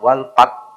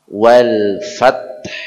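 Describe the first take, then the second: First: The last word begins with a p sound. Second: The last word begins with an f sound. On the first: The speaker calls it wrong. "bukan wal pat" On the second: The speaker calls it right. "Jadi wal fa"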